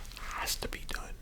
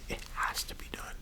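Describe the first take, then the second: No difference in how they are said.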